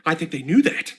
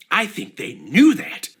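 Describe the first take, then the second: First: Said in the usual way. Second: "knew" stressed slowly; drawn out, "knew" leaned on; slow knowing repeat. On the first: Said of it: "first take". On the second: Shown as a demonstration. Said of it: "repeated slower".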